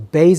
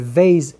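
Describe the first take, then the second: First: It begins with a hard B sound. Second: It begins with a soft V sound. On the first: "the harsh pronunciation" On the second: "the light pronunciation"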